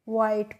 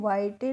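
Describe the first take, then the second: First: The word ends on the consonant t. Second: The word ends with an extra vowel sound. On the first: The speaker calls it right. "हम इसको वाइट पढ़ते हैं" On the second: The speaker calls it wrong. "वाइटे नहीं पढ़ते हैं"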